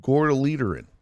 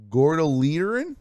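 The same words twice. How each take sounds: First: Gordoleaterin said firmly with a falling tune; confident confirmation. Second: Gordoleaterin asked with a rising, questioning tune; tentative first attempt at a strange word; unsure guess. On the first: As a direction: land "Gordoleaterin" like a settled fact. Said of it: "Oh, yeah, sure enough". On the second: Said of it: "Oh, I gotta Google that". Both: Real, not acted.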